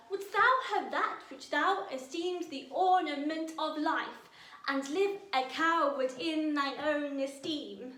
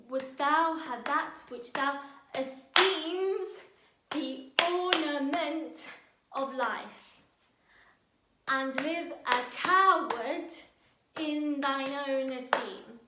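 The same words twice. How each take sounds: First: Loud, raised verse read with an even beat on every line; rhythmic verse reading. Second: Slow, loud read with "ornament" and "coward" punched hard and held; stress on ornament and coward. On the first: Teacher tapping out the verse rhythm for students, loud and even. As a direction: declaim it evenly, riding the ten-beat rhythm. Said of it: "let's really find the musicality of it".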